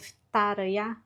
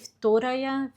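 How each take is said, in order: First: The first vowel is reduced to an 'a' sound. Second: The first vowel is a full 'o' sound. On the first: The speaker calls it right. "o O fica com som de A" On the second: The speaker calls it wrong. "falei errado"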